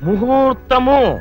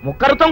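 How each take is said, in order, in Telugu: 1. రెండవ అక్షరం h శబ్దంతో మొదలవుతుంది. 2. రెండవ అక్షరం kh శబ్దంతో మొదలవుతుంది. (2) "కింద ఒత్తులు తీసేసి ప్రాణాలు తీసేస్తున్నావు డాడీ. ముఖర్తం కాదు"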